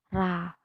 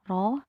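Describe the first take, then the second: First: The vowel after r sounds like a clear a. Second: The vowel after r sounds like a clear o. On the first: "juga tidak A" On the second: "tidak dibaca O, tidak biro"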